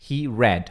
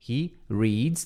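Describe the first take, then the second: First: "read" as "red", without an s; past-tense pronunciation. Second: "reads" as "reeds", long ee; present with S. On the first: English teacher explaining third person past, "read" as "red". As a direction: say "read" with a short e. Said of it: "não tem S". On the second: English teacher explaining third person present, "reads" as "reeds". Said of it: "terceira pessoa bota o S". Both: Shown as a demonstration.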